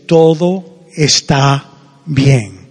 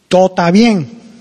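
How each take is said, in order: First: It is said in a full standard Spanish accent. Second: It is said in a clipped Cuban Spanish accent. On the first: "In normal Spanish, you say" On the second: "that's how you say it in Cuban"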